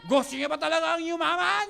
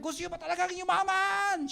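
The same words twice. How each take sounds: First: Louder hype question. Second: Hype question to crowd. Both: Shown as a demonstration. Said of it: "tatanungin mo yung crowd".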